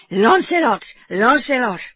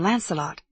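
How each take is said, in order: First: Put-on higher, louder French-accented cheer; French accent yell. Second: Said in the usual way. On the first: A narrator's reading. Frenchman cheering his horse, French-accented yell. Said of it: "in his French accent".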